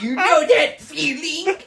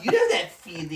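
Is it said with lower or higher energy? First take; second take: higher; lower. First: It is said with more energy. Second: It is said with less energy.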